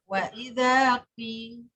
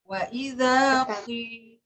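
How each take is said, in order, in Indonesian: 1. Vokal i itu ringan dan tipis. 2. Vokal i itu berat dan tebal. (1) "itu kasroh tapi tarkif" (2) "Kasroh tafkhim"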